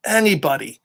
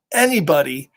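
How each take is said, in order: Both takes have the same delivery.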